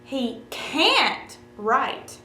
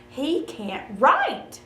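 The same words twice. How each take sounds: First: The stress is on "can't". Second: The stress is on "write".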